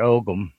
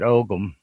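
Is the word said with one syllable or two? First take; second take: two; two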